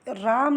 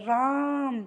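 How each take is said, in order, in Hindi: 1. स्वर सामान्य लंबाई में बोला गया है। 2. स्वर लगभग तीन गुना देर तक खींचा जाता है। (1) "राम नहीं बोल रहे" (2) "तिगुनी हवा हमारे मुंह से निकल रही"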